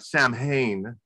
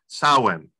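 First: It uses the common American pronunciation. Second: It uses a pronunciation unlike the American one. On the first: The speaker calls it wrong. "In the United States, we call it Samhain" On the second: The speaker calls it right. "the correct pronunciation is Samhain"

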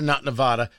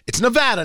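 First: The middle vowel is said the outsider way. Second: The middle vowel is said the local way. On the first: The speaker calls it wrong. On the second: The speaker calls it right. "say the name of the state right"

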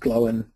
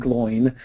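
First: The name is split into two syllables. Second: The name is run together as one syllable. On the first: The speaker calls it right. "they pronounce Glowin properly" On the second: The speaker calls it wrong. "They don't pronounce him Gloin"

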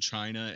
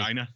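First: The word starts with a plain 'ch' sound. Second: The word starts with a soft 'j' sound. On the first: The speaker calls it wrong. "you pronounced that wrong" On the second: The speaker calls it right. "You're supposed to say China"

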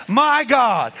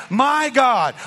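Both takes have the same delivery.

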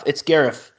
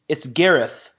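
First: The name ends with an f sound. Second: The name ends with a th sound.

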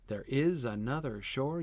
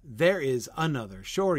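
First: Stress falls on the even syllables, starting with 'is'. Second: Stress falls on the odd syllables, starting with 'there'. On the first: The speaker calls it right. "that second line is a perfectly iambic line" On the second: The speaker calls it wrong. "I was trying to read it trochaically. And it didn't work"

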